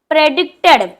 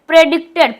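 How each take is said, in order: No difference in how they are said.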